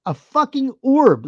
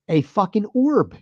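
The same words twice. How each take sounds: First: "orb" drawn out, higher and louder, slower; stress on orb. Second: Said in the usual way. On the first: Real, not acted. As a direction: lean hard on "orb" in disbelief.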